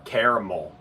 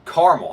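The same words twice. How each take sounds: First: "caramel" as KAIR-uh-mul; rejected pronunciation. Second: "caramel" in two syllables, CAR-mul; preferred pronunciation. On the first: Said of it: "I'm not saying that shit". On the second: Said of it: "I'm saying caramel". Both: Shown as a demonstration.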